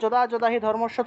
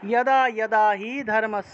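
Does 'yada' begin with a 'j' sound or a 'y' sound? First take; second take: j; y. First: Each 'yada' begins with a 'j' sound. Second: Each 'yada' begins with a 'y' sound.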